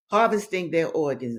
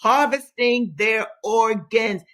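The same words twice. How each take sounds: First: Said in the usual way. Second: Harvesting punched higher, louder and slow; emphatic repeat. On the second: Shown as a demonstration. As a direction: hammer home Harvesting their organs, slow and loud. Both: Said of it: "this is Regina emphasizing".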